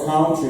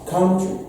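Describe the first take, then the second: First: Country with a short UH vowel, kʰantɹi; country said the common student way; students' usual country. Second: Country said with an OW vowel, kʰaʊntɹi; correct country. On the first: Retold or imitated. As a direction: imitate the students saying country. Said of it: "the normal country the students say". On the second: Shown as a demonstration. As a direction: say Country as COW-ntry. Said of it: "And not the normal country the students say".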